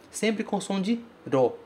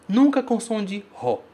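First: "ro" with a tapped R; right ro. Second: "ro" with a guttural Portuguese R, ho; the mistake, "ro" as ho; wrong ro. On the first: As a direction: say "ro" with the flap. ("ro" com R batido) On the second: ("ro" com R aspirado, errado) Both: Shown as a demonstration.

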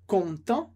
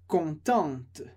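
First: "content" with nasal ending, no T; silent T. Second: "contente" ending with a clear T; sounded T. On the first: Teacher repeats masculine form, T silent. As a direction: stop "content" on the nasal vowel. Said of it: "De novo". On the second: Teacher repeats feminine form, T sounded. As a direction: land the T at the end of "contente". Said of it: "pronuncio o T que vem antes". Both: Shown as a demonstration.

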